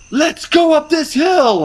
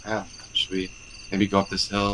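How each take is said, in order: First: High, slow, eager rallying call; rally them up the hill; gung-ho leader voice. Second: Soft, unsure, hedging question; timid hesitant voice. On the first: Confident leader rallying the team. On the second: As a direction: ask it meekly. Hesitant leader asking timidly. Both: Retold or imitated.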